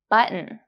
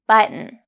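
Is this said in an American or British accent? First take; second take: American; American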